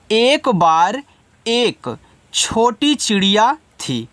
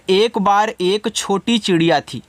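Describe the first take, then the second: First: Slow, with pauses between phrases; word-by-word translation. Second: Said in the usual way. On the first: Shown as a demonstration. Teacher assembles the meaning for students, slow and piece by piece. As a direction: build the sentence piece by piece, slowly. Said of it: "तो अर्थ कैसे आप इनका बनाओगे". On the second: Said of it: "कैसे?".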